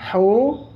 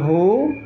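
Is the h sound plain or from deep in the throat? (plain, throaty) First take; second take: throaty; plain. First: The h is made deep in the throat. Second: The h is a plain light breath. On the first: The speaker calls it right. "Dia ada di makhraj tenggorokan tengah" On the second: The speaker calls it wrong. "bukan hu"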